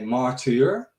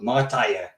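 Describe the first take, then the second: First: It is said with a German pronunciation. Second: It is said in a local Dutch dialect. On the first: "in Germany, they always say martyr" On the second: "we talk with a little accent. We call, they call it Martije"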